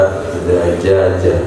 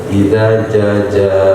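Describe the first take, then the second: The two takes are said the same way.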